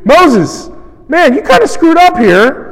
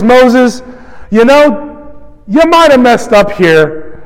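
First: Higher, pushier mock grumble to Moses; sharper complaint. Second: Mild complaint. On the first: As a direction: needle Moses, a step more accusing. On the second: Retold or imitated. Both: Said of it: "increasing intensity and antagonism".

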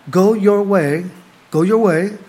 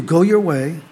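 First: "Go your way" pressed out firmly, each word weighted; emphasized go your way. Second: Said in the usual way. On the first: Shown as a demonstration. Preacher repeating the verse to his church, emphasized. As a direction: lean hard into "Go your way". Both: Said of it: "emphasize that".

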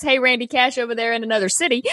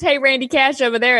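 First: Shouted fast and emphatic; mock shout. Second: Said in the usual way. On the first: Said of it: "It's not just, "Hey, Randy Cash over there". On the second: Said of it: "It's not just".

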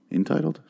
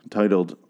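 First: "entitled" lifted high into a question; unsure query. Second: "Titled" as a statement with falling end; settled correction. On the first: Host doubting his own episode title, "entitled" asked with rising pitch. Checks own word choice aloud. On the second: Host correcting his episode title, "Titled" stated with a falling end. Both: Real, not acted.

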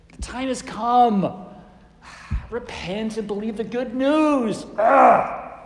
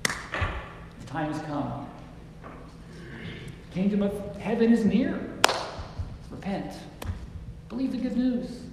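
First: Exasperated sighs, louder, drawn-out delivery; frustrated. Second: Kindly. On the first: Preacher demonstrating a frustrated Jesus, exasperated. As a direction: huff it out, ending in a loud ugh. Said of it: "Is he frustrated?". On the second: Preacher showing how Jesus spoke to people, kindly. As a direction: offer it kindly, with long pauses. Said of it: "I think he said it kindly". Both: Shown as a demonstration.

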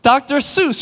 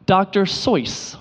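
First: "Doctor Seuss" rhyming with juice; common way. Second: "Doctor Seuss" with Seuss as soyce, slow; slowly: Doctor Soyce; correct way. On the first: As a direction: say "Seuss" as soose. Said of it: "you're wrong". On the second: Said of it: "It's actually pronounced". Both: Shown as a demonstration.

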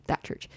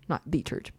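First: THAT picked out with firm stress. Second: THE said as a stressed "thee". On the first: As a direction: point at THAT, keeping church lighter. Specifies that one church. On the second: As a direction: lean on THE, pronounced "thee". Corrects which church is meant. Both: Real, not acted.

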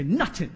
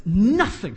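First: Attempted American accent, New York style. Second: Said in the usual way. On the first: Shown as a demonstration. Preacher jokes with the congregation, attempted New York accent. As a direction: say it like a New Yorker, dropping the "th". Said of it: "my attempt at an American accent, so New York style". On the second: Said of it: "my attempt at an American accent".

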